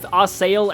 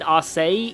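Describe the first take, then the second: First: The name ends with an L sound. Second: The name ends without an L sound. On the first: "I've heard it said as both Arsail and Arsay" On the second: "I think it's Arsay"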